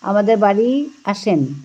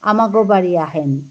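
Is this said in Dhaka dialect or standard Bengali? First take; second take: standard Bengali; Dhaka dialect. First: It is said in standard Bengali. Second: It is said in Dhaka dialect.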